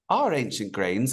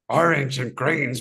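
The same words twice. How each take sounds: First: It is read in a put-on British accent. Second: It is read in a put-on monster voice. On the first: "do it with a British accent" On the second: "do it in a monster voice"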